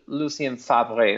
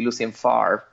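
First: Favre is said with a French pronunciation. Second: Favre is said like a Mississippi speaker would.

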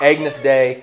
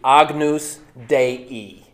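First: It is pronounced with English sounds. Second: It is pronounced with Latin sounds. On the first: "nobody's going to look at you funny" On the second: "if you're pronouncing it with the Latin"

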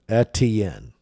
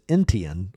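First: The first syllable has no added n sound. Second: The first syllable has an added n sound. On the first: The speaker calls it right. "that's how it is listed on the pronunciation guide" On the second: The speaker calls it wrong. "with an extra sound in the first syllable"

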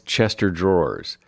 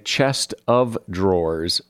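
First: The middle sounds like one word, chester. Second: The middle is said as chest of. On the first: The speaker calls it wrong. "Look at that nice Chester Drawers" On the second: The speaker calls it right. "it is correct to say Chest of Drawers"

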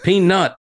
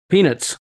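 First: The second syllable is strongly stressed, 'nut'. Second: The second syllable is weak, like 'nits'. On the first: The speaker calls it right. "with the emphasis on the nuts" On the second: The speaker calls it wrong. "it doesn't sound like there's a U in there for you"

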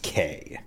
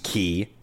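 First: The vowel sounds like the letter 'K'. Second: The vowel sounds like the word 'key'. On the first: The speaker calls it wrong. "It is not pronounced K" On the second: The speaker calls it right. "it's pronounced Key"

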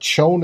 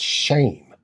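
First: The name has a long 'o' vowel, like 'shown'. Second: The name has an 'ay' vowel, like 'Shane'. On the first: The speaker calls it wrong. "it's not Schoen" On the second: The speaker calls it right. "it's Shane is the proper pronunciation"

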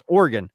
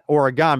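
First: The last syllable is reduced, like 'gun'. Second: The last syllable sounds like 'gone'. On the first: The speaker calls it right. "The fact is that it's pronounced Oregon" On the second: The speaker calls it wrong. "It's not Oregon because we didn't go anywhere"

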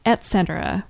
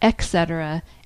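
First: The first syllable has a T sound. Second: The first syllable has no T sound. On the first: The speaker calls it right. "with a T sound" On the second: The speaker calls it wrong. "and not etc., as I apparently said in a previous show"

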